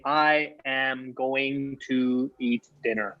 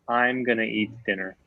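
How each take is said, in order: First: 'I am' is said as two full words. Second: 'I am' is contracted to 'I'm'. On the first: The speaker calls it wrong. "I would never say" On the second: The speaker calls it right. "That's what a natural person would say"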